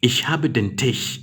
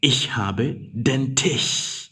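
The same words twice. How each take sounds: First: Slowed, stress on "habe"; slow repeat. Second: Very slow, each word apart; slow dictation. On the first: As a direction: repeat the sentence slowly. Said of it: "Tisch should be capital T". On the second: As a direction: read it slowly for the class. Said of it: "you say". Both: Shown as a demonstration.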